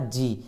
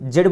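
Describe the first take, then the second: First: The letter name ends with a long ee vowel. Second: The letter name ends with a d sound. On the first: "इसका pronunciation एक और होता है जी" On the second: "इसको हम लोग अभी जेड बोलते हैं"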